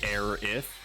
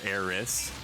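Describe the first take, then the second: First: The name ends with a th sound. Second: The name ends with an s sound. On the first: "I've heard it both ways" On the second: "with an S at the end"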